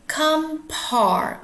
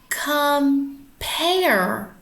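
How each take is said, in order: First: The word is sounded out as 'come' plus 'ar'. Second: The word ends with an 'air' sound. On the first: The speaker calls it wrong. "this looks like the word come without the E at the end. Let's try that. Come R" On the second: The speaker calls it right. "let's try a different way"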